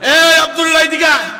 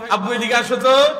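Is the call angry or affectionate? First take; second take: angry; affectionate. First: The call sounds angry and harsh. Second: The call sounds warm and affectionate.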